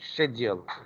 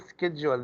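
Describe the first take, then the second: First: It is said the British way. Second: It is said in a non-British way. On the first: "The British say schedule" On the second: "the British don't say schedule"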